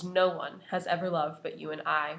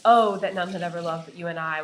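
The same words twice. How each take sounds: First: Level and settled, ending on a firm fall; calm closing declaration; final statement. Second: Louder, a ringing exclamation; fervent exclaimed declaration. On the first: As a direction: close it like a period, final. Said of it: "with a period". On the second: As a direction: cry it out with an exclamation point. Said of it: "with an exclamation point". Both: Shown as a demonstration.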